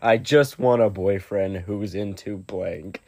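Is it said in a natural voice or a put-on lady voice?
natural voice. It is said in a natural voice.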